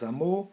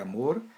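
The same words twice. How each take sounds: First: The final R sound is dropped. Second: The final R sound is pronounced.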